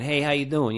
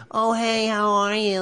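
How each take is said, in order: First: Put-on a light New York accent, a tough doorman's greeting; a hint of a New York doorman saying hi. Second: Much higher, cartoon chipmunk-like greeting; imitating a quirky classmate, squeaky and cartoonish; quirky cartoonish guy. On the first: Playing a New York doorman at an audition, light New York accent. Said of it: "I was playing the New York doorman". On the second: Imitating J R's audition as the doorman, high and cartoonish. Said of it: "like that".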